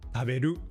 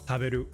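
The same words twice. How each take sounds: First: The high pitch is on the last syllable. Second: The pitch stays level across every syllable. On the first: "or at the end" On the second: "or even just flat throughout"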